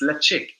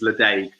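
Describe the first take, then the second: First: The name is said the Gaelic way. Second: The name is said the anglicized way. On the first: The speaker calls it right. "it's Lechig, um, which is a Gaelic word" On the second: The speaker calls it wrong. "I've been pronouncing this as Ledaig for many many a year"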